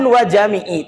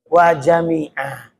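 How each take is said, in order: First: The word ends with an 'ee' vowel. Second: The word ends with an 'ah' vowel. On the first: The speaker calls it wrong. "Jangan wajami'i" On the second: The speaker calls it right. "tapi wajami'ah. Karena itu irobnya yang betul"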